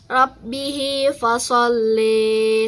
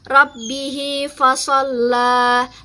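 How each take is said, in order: First: The final vowel is tilted toward 'i'. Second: The final vowel sounds like an open 'a'.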